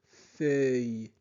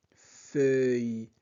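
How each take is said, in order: Both takes have the same delivery.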